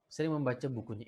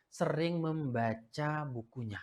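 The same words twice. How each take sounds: First: Said in the usual way. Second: "Sering membaca bukunya" said slowly, leaning on "sering"; teacher drives home "sering", slow and weighty; slow emphasis. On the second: Shown as a demonstration. Teacher to students, slow stressed "sering".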